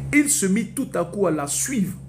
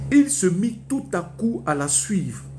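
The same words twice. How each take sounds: No difference in how they are said.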